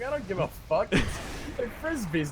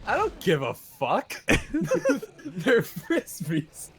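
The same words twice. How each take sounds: First: Slow, drawn-out imitation of a kid; mock rude kid. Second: Mock rude kid, slow and breaking into laughter; laughing imitation. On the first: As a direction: stretch it out like a careless kid. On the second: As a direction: lay it out slowly, cracking up.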